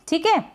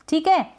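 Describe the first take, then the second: The two takes are said the same way.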